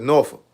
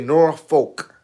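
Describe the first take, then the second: First: It uses the pronunciation of local residents. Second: It uses the pronunciation common outside the area. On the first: This is how locals say the name. "We call it Norfolk" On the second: This is how other people say the name. "people say Norfolk"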